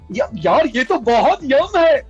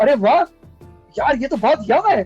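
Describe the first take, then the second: First: It sounds exaggerated and overacted. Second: It sounds natural, like real everyday speech.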